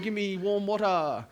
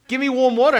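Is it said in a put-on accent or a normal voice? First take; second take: put-on accent; normal voice. First: It is said in a put-on Chinese accent. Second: It is said in the speaker's normal voice.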